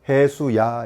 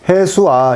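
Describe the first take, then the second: First: A y-glide is inserted between the two vowels. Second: Two vowels meet directly with no glide between. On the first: The speaker calls it right. "요 사이에 반자음 I, 반자음 E를 넣어요. 그래서 해수야, 이렇게" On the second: The speaker calls it wrong. "이거 어때? 안 되지"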